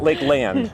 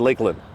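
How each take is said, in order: First: The second part 'land' is fully pronounced. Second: The second part 'land' is barely pronounced. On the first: The speaker calls it wrong. "It's not Lakeland" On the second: The speaker calls it right. "You don't really pronounce the land part"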